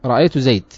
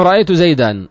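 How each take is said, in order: First: زيد stopped dead on the d; pause by deletion. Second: زيدا ending in a long aa sound; pause with alif. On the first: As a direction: drop the final vowel of زيد. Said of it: "وقفوا على نحو رأيت زيدا بالحذف". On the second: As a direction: hold an open alif at the end of زيدا. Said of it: "وقف عليه العرب بالألف". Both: Shown as a demonstration.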